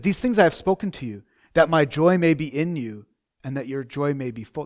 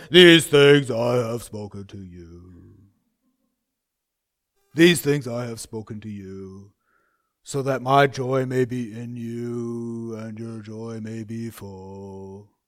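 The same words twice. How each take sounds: First: Said in the usual way. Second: Lower, slow, gloomy recitation; mock-dour, heavy and slow; dour and miserable. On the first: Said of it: "Now, how did he say it?". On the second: Shown as a demonstration. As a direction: drag it out like a joyless preacher. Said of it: "How did he say it?".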